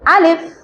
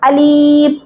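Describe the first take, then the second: First: The vowel is said quickly and short. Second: The vowel is stretched out long. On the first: The speaker calls it right. "దీన్ని తొందరగా పలకాలి" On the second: The speaker calls it wrong. "Alif ఈ విధంగా pronounce చేస్తారు... కానీ ఇది తప్పు"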